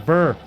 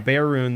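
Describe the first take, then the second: First: The vowel sounds like the one in 'burr'. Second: The vowel sounds like the one in 'bear'. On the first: The speaker calls it wrong. "Everybody says burr" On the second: The speaker calls it right. "that's really how you pronounce"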